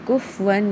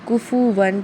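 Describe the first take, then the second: First: The f is said with no vowel after it. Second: The f is followed by a short u vowel. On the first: The speaker calls it wrong. "यहाँ पे कुफ वन नहीं पढ़ना" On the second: The speaker calls it right. "कुफू वन पढ़ना है"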